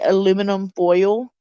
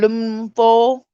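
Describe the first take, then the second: First: Every vowel and consonant is fully pronounced. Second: Some vowels and consonants are dropped. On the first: This is how Southerners do not say it. "we do not say aluminum foil" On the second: This is how Southerners say it. "we don't pronounce all the vowels and consonants"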